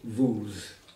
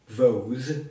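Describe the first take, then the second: First: The vowel sounds like 'oo'. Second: The vowel sounds like 'oh'. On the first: The speaker calls it right. "as if it was spelled with a double O" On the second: The speaker calls it wrong. "So it's not vose"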